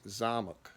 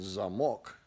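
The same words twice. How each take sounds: First: Zamok with ZA stressed and the second o reduced to uh; ZA-muk, weak second vowel; stress on first syllable, reduced o. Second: Zamok with MOK stressed, clear o; za-MOK, full o at the end; stress on last syllable. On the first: Teacher showing the reduced vowel, stress up front. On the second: Teacher showing the full o, stress at the end. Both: Shown as a demonstration. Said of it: "the O in there actually sounds like".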